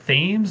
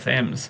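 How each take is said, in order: First: The vowel is a long 'ee' sound. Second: The vowel is a short 'e' sound. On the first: "whether you pronounce it Themes" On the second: "or Thems"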